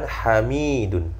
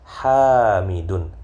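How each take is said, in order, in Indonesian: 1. Vokal pertama pendek. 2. Vokal pertama panjang. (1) "Bukan Hamidun" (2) "yang benar Hamidun. H-nya panjang"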